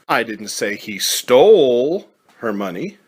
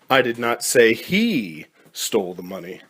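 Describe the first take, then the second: First: The stress is on stole. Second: The stress is on he.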